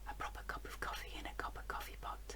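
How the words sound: It is said in a soft whisper. "we'll start by whispering"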